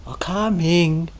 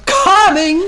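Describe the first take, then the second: First: Slow, put-upon coming; grudging reply. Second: Loud, high call back; shouted reply. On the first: Shown as a demonstration. Teacher mimicking the attendant's coming, slow and grudging. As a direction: drag the word out like a reluctant servant. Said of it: "it's a row already in that coming". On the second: Retold or imitated. Attendant shouting back to the impatient abbot, loud and high. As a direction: fling the answer back at full voice. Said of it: "so now there's a shout".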